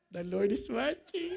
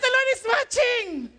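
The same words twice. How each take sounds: First: Low, soft teasing reminder; gentle reminder. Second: Raised, high-pitched insistent reminder; emphatic retort. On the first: Husband reminding his irritated wife, low gentle reminder. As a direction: remind them quietly, voice dropped low. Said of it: "I would just remind her". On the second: Husband and wife bickering playfully, loud emphatic retort. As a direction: insist on it, voice lifted. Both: Retold or imitated.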